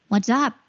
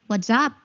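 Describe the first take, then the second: No difference in how they are said.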